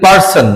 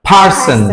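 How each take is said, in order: First: The first p is plain, with no puff of air. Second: The first p is pushed out with a puff of air. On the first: The speaker calls it wrong. "না হবে পার্সন" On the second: The speaker calls it right. "একটু ধাক্কা দিতে হবে না, stress দিতে হবে এবং লিপটাকে জয়েন করতে হবে"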